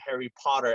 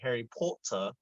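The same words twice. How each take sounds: First: It is said with an American accent. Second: It is said with a British accent. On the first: "I was thinking Harry Potter as opposed to British" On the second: "I'm butchering the the the pronunciation, but they will say Harry Potter"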